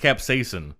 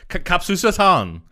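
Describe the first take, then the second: First: The word is pronounced in the usual standard way. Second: The word is pronounced with garbled, altered middle sounds. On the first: The speaker calls it right. "you say it as capsaicin" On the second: The speaker calls it wrong. "Steve Buscemi had like capsusatan"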